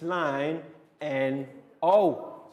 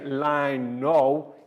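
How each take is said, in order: First: The letters are said one by one. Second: The letters are said as one word. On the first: The speaker calls it right. "It's line N O" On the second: The speaker calls it wrong. "We don't say line no"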